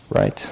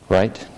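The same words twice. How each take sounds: The two takes are said the same way.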